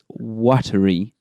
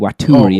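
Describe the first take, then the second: First: It is said like the word watery. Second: It is not said like the word watery. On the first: The name is a pun on watery. The speaker calls it right. "It's Watery" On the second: The pun in the name is missed. The speaker calls it wrong. "shouldn't be Waturi as everyone's pronouncing it"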